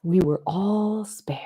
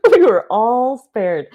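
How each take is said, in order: First: Whispered. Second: Spoken out loud. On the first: Quiet awed realization, whispered. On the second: Repeated aloud, louder after whisper. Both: Real, not acted.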